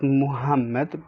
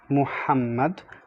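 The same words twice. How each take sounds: First: The middle H is light and plain. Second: The middle H is heavy and breathy. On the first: The speaker calls it wrong. "not Muhammad" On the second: The speaker calls it right. "Ha is basically a heavy H"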